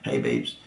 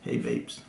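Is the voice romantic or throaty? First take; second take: throaty; romantic. First: It is said in a deep, throaty voice. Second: It is said in a soft, romantic voice. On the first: "if you talk like this as well. I don't know why some people talk from their throat" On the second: "put on your romantic voice"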